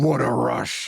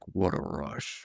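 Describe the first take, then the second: First: It is said with lively, expressive inflection. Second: It is said flat and subdued.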